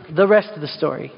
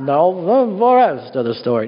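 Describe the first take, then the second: First: Said in the usual way. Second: Paul Harvey. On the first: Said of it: "I'm not gonna talk like that". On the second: Shown as a demonstration. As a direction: drop your voice like an old-time radio host. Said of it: "do my best Paul Harvey impression".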